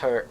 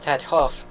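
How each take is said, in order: First: The name is said as one short syllable. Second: The name is said with two full syllables. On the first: The speaker calls it right. "he said it's actually pronounced her" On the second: The speaker calls it wrong. "why I'm not uh, pronouncing it as Ted Hoff"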